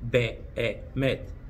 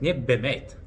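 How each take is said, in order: First: The vowel after 'b' is drawn out longer. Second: The vowel after 'b' is short and clipped. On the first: The speaker calls it right. "Вы должны немного оттягивать букву «э»" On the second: The speaker calls it wrong. "как я часто слышу от русскоговорящих людей"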